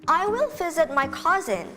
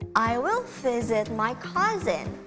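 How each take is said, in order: First: It is said at a normal, quicker pace. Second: It is said at a slower, careful pace.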